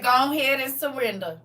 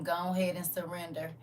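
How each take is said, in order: First: Loud, raised old grandpa imitation; lightly voiced grandpa, half laughing. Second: Said in the usual way. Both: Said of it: "In his old grandpa voice".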